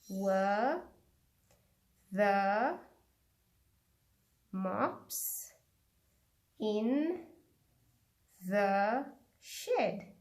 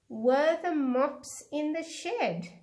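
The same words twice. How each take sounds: First: It is said slowly. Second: It is said at normal speed.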